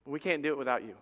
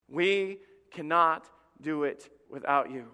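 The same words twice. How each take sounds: First: Said in the usual way. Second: Slow, spaced-out "We cannot do it without you"; emphatic word by word. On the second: Real, not acted. Appeal repeated word by word.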